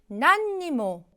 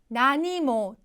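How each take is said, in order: First: It is said with an extra n sound. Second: It is said without an extra n sound. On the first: "이 응을 쓰기도 하고요" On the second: "뺏어 쓰기도 합니다"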